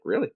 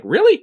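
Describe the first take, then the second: First: Said in the usual way. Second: Incredulous. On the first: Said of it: "He's like". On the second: Retold or imitated. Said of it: "he's like".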